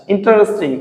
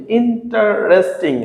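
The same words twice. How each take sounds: First: Said in the usual way. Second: "interesting" slowly as in, ta, res, ting; split into syllables. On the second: Shown as a demonstration. Teacher showing the syllables, "interesting" slowly split in, ta, res, ting. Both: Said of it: "তিনের অধিক অংশ থাকে".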